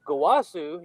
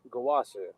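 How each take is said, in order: First: Mildly surprised call of the name; surprised Goku. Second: Low, calm and collected; serious Goku. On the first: Retold or imitated. Mocking how Goku says his master's name, mildly surprised. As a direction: blurt it, mock clueless surprise. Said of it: "surprised and shit like he always does". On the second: Shown as a demonstration. Showing how Goku should have said it, calm and low. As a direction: say it cool, pitched down, with quiet menace. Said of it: "It would be more calm, cool, and collected".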